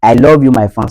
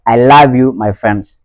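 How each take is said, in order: First: LOVE as "lawv" in a Nigerian accent. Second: LOVE as "lahv" in a Ghanaian accent. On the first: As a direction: Nigerian English with rounded "aw" in love. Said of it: "Ça, c'est du côté, eh, nigérian". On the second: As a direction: open the vowel of love to "ah", Ghanaian style. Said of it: "du côté ghanéen". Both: Shown as a demonstration.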